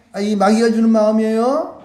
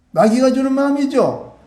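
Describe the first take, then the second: First: "마음이에요" lifted into a rising end; leading question. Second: "마음이죠" pitched high, then firmly falling; confirming answer. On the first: Preacher quizzing children on the bad thought, "마음이에요" rising as a question. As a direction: ask it, pitch climbing on "마음이에요". Question put to congregation before answer. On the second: Preacher answering the quiz, "마음이죠" falling as a sure statement. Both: Shown as a demonstration.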